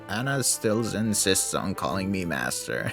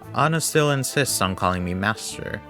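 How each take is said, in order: First: It is said in a put-on old man voice. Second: It is said in a natural speaking voice. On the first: "How do you do an old man voice? It's like" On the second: "No, I hate doing that"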